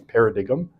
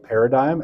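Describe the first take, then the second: First: "paradigm" sounded out as para-dig-um; mispronounced paradigm. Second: Said in the usual way. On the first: Retold or imitated. Lecturer quoting the AI reading voice, mispronounced "paradigm". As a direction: copy the error, "paradigm" with a hard g and an um ending. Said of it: "it always pronounces it as paradigm". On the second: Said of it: "mispronounces things like paradigm".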